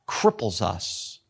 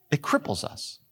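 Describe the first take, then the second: First: Cripples drawn out slow and low; drawn-out emphasis. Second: Said in the usual way. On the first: Acted. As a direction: lean hard and slow on cripples. Emphatic repeat in sermon.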